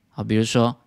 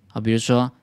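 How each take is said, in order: No difference in how they are said.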